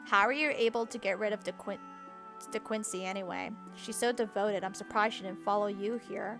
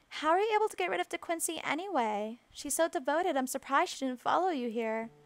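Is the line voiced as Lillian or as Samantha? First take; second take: Lillian; Samantha. First: It is read in Lillian's character voice. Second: It is read in Samantha's character voice.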